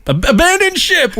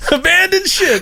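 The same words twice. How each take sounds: First: High, drawn-out cry of alarm; mock shout. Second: High shout breaking into laughter; laughing shout. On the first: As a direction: yell it like a sinking captain. Mock shouting abandon ship. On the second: Pretend. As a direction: yell it while cracking up. Repeat cry, laughing.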